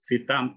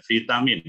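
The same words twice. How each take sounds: First: Vitam- begun with an F, fitam; Indonesian F sound. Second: Vitamin said fitamin, with an F; Indonesian F sound. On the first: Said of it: "Orang Indonesia bilang". (pengucapan vitam- dengan bunyi F) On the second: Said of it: "maksudnya dia pakai bahasa Indonesia". (vitamin diucapkan fitamin dengan F) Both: Shown as a demonstration.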